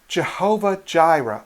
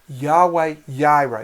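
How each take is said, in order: First: The name starts with a hard J sound. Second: The name starts with a Y sound. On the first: "as a hard J" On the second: "or more of a Y"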